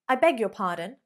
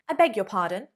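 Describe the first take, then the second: No difference in how they are said.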